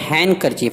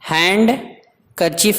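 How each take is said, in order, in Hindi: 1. n के बाद d की कोई आवाज़ नहीं बोली जाती। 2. n के बाद d की आवाज़ बोली जाती है। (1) "बल्कि हैंड कर्चीफ" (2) "नहीं पढ़ेंगे"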